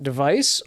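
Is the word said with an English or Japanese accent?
English. It is said with a plain English accent. "you can pronounce it device"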